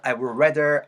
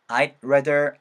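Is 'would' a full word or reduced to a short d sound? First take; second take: full; reduced. First: Would is said as a full separate word. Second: Would shrinks to a quick d linked onward.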